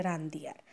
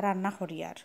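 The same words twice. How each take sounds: First: রান্ধি আর, সিলেটি আঞ্চলিক ভাষায় বলা; রান্না নয়, সিলেটি রান্ধি আর; সিলেটি উচ্চারণ. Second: রান্না করি আর, শুদ্ধ বইয়ের ভাষায় স্পষ্ট করে; রান্না শব্দ বইয়ের ভাষায় বলা. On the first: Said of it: "আমরা সিলেটি আঞ্চলিক ভাষা হইলে". (সিলেটি আঞ্চলিক উচ্চারণে রান্ধি) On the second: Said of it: "এখানে বইয়ের ভাষাত পড়ে". (বইয়ের শুদ্ধ উচ্চারণে রান্না) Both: Shown as a demonstration.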